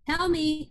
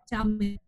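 First: It is said with rising, heightened emotion. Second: It is said flatly, same as the others. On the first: The speaker calls it right. "our emotions are getting heightened each time" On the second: The speaker calls it wrong. "we wouldn't say them all the same. I'm not going to be like"

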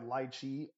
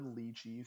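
First: The word is said in the usual local way. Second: The word is said in its original way.

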